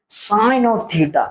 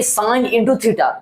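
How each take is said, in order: First: "sine of theta" slowly, with a clear OF; correct reading. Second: "sine into theta" with INTO in place of "of"; wrong reading. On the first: Teacher shows students the reading, "sine of theta" slow and clear. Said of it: "इसको pronounce हम इस तरीके से करते हैं". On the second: Teacher shows students the misreading, "sine into theta" said with INTO. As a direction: read "sine into theta" as if multiplying. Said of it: "इसका मतलब ये नहीं". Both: Shown as a demonstration.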